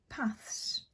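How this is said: It is said in a northern English accent.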